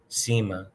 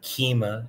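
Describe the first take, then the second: First: The word begins with an s sound. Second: The word begins with a k sound. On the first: The speaker calls it right. "it's se, si, certamen, cima" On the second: The speaker calls it wrong. "It's not kima"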